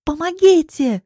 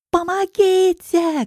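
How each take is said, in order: First: High, loud call for help; cry for help. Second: High, long drawn-out scream for help; desperate cry. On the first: Woman being dragged away calls for help, high shout. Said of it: "кричу я". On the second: Woman about to be pushed into a car, desperate cry. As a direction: stretch it into a desperate high wail. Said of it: "кричу я отчаянно". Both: A narrator's reading.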